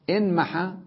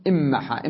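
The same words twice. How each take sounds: First: إنمحى with a clear n before the m; original unmerged nun. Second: إمحى with a long double m, no n; assimilated nun. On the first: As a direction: sound the n separately in إنمحى. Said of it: "والأصل إنمحى". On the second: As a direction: merge the n into m in إمحى. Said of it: "يعني أسهل نطقها بالإدغام". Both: Shown as a demonstration.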